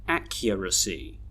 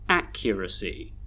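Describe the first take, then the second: First: The unstressed syllables are reduced to schwa. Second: The unstressed syllables are reduced to schwa.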